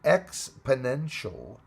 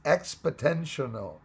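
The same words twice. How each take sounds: First: "exponential" slowly, as ex-puh-NEN-shul; careful correction. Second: "exponential" garbled as ex-puh-TEN-shun-ul; mispronounced. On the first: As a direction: sound out "exponential" slowly with a clear NEN in the middle. Repeats the word correctly after stumble. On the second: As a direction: trip over "exponential", putting a t in place of the first n sound. Stumbles on word, then corrects it. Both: Real, not acted.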